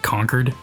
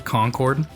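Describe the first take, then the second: First: It is said the Massachusetts way. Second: It is said the general way.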